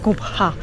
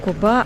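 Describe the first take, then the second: First: The b has a breathy h after it. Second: The b has no h sound after it. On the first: The speaker calls it right. "читалась вот эта вот глухая буква Х" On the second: The speaker calls it wrong. "правильно говорить не Коба"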